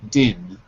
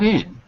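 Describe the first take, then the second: First: The word begins with a linked d sound. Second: The word begins with a plain vowel sound. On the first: The speaker calls it right. "we drop the D on the word used and we pass it to the next word" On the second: The speaker calls it wrong. "Not in"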